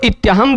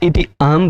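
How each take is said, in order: First: The words merge into one, with a y sound. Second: The words stay separate, with no y sound. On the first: The words are treated as one connected unit. "इति अहम को इत्यहम बोलिए" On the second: The words are treated as separate units. "चाहे इति अहम बोलिए"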